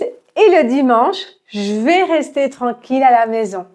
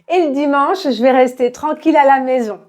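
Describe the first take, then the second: First: The sentence is spoken at a moderate speed. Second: The sentence is spoken very quickly. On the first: "Un peu plus vite" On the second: "très rapidement"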